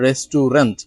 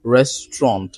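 First: Restaurant in three syllables, res-tu-RENT; wrong pronunciation. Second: Restaurant as RES-tront; correct pronunciation. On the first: Teacher warns against this form, wrong pronunciation. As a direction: sound the middle "u" in restaurant. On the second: Teacher corrects the long form, correct pronunciation. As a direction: say restaurant in two syllables. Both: Shown as a demonstration. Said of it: "not restaurant".

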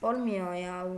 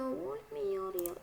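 First: Said in the usual way. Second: "Olmuyor ya" said slow, soft and higher with a whiny stretch; playful whine. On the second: Shown as a demonstration. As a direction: drag "Olmuyor ya" out in a silly changed voice. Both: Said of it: "repeated three ways".

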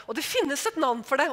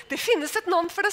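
First: Said in the usual way. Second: Getting worked up. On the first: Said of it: "Og nå begynte jeg". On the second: Retold or imitated. Telling the stewardess off on the plane, rising heat. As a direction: voice rising higher and louder, heated. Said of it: "begynte å bli litt opphisset".

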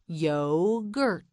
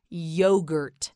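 First: Yogurt slowly split into yo-gurt; syllable by syllable. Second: Said in the usual way. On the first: Shown as a demonstration. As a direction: draw out both syllables of Yogurt. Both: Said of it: "You say it, say yogurt".

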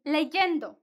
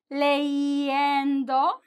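First: "leyendo" as le-YEN-do, with a consonant Y. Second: "leyendo" stretched into le-i-endo; three vowels together. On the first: Teacher showing the evolved form, "leyendo" with a consonant Y. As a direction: put a clear Y sound between the vowels of "leyendo". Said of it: "it evolved in a way". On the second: Teacher explaining why the spelling changed, "leyendo" as three separate vowels. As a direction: draw out each vowel in "leyendo", no Y consonant. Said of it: "like three vowels together". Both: Shown as a demonstration.

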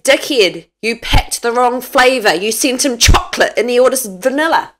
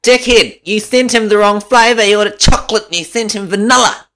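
First: Louder telling-off; loud but normal-pitch scold; her own way. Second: High, loud mock nag; squeaky mocking nag; mock wife. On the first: Shown as a demonstration. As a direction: tell him off about the wrong flavour. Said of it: "I say". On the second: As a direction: ham up her telling-off. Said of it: "How do you say it then?".

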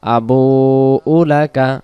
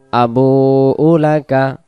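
The two takes are said the same way.

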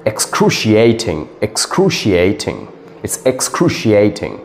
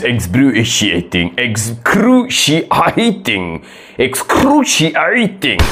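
First: "excruciating" as ik-SKROO-shee-AY-ting; correct pronunciation. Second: "excruciating" as eks-KROO-shee-EYE-ting; wrong pronunciation. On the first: Shown as a demonstration. Teacher correcting the student, "excruciating" pronounced correctly. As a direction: model "excruciating" with a clear AY. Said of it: "that's a wrong pronunciation, it's". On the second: Acted. Student answering confidently, "excruciating" mispronounced. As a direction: mangle "excruciating" slowly, stretching the EYE. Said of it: "that's a wrong pronunciation".

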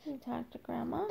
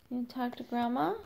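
First: Soft whispered question; whispering. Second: Said in the usual way. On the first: Real, not acted. Repeats question, then whispers.

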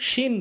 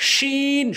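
First: শিন with a short vowel; mispronounced শিন. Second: শিন with strong sh and long "ee"; mid-tongue to palate, stretch শিন to "sheen"; correct শিন. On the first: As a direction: say শিন briefly, as "shin". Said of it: "ভুল উচ্চারণ". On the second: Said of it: "সঠিক উচ্চারণ". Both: Shown as a demonstration.

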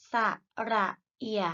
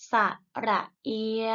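First: เอีย cut short with an abrupt stop; short vowel. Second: เอีย held long before it trails open; long vowel. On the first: Teacher models vowels for pupils to repeat, short เอีย. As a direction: say ระเอีย with a brief, checked final glide. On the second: Teacher models vowels for pupils to repeat, long เอีย. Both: Shown as a demonstration. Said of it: "ไปฝึกอ่านออกเสียงสระ".

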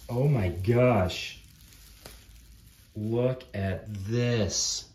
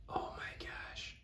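First: Loud, slow, stretched-out amazement; amazed exclamation. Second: Slow, very soft whisper of amazement; awed whisper. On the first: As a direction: exclaim it loudly, dragging the words. Big reaction to next miniature. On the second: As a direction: whisper it slowly, stunned. Same reaction, now in awe. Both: Real, not acted.

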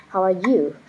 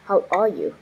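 First: How are YOU with "you" carrying the weight; "you" stressed, "how" and "are" light. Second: How ARE you with the weight on "are"; "are" stressed, "you" left light. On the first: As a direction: lean on the word "you", falling tune. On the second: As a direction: punch the word "are", then fall. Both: Shown as a demonstration. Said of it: "stress drill, word stress moved".

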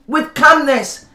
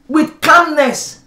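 Both takes have the same delivery.

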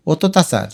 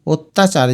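First: অত্যাচার as o-to-ta-char; without hasanta. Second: Said in the usual way. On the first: Shown as a demonstration. Teacher showing a missing hasanta, অত্যাচার said o-to-ta-char. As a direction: add an extra o after the first t in অত্যাচার. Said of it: "উচ্চারণটা হবে". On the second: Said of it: "যে হসন্তগুলো না দিলে".

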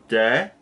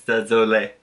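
First: "désolé" broken into de, zo, lay with pauses between; syllable by syllable. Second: Said in the usual way. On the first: Shown as a demonstration. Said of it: "I'm gonna tell you how it works". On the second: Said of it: "It's not that high".

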